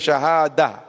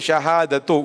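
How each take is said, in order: First: The word ends on a plain a sound. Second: The word ends with a t and u sound. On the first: The speaker stops after the word. The speaker calls it right. "we say shahada" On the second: The speech continues after the word. The speaker calls it wrong. "we don't say shahadatu"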